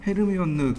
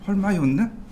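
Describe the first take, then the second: First: The name is said in a Korean-style reading. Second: The name is said in an English-style reading. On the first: The speaker calls it wrong. "콩글리시인 건" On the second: The speaker calls it right. "헐마이온이라고 부르던데요"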